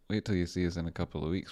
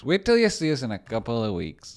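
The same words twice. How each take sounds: First: Said in the usual way. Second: Loud, high mock boast; hammed-up boast. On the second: Streamer boasting about weeks to come, hammed up loud. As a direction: belt out the catchphrase, pitched up high. Repeats catchphrase three different ways.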